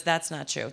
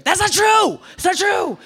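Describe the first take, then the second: First: Said in the usual way. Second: High, loud outraged denial; shouting the denial at father; indignant shout. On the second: Retold or imitated. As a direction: yell it back in protest. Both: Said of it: "my reaction to this was".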